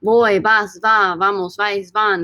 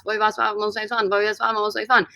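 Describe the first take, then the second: First: Said in the usual way. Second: Quick tongue-twister recitation; rapid-fire drill. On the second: Shown as a demonstration. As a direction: race through the verb forms, words run together. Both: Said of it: "I say it twenty times fast".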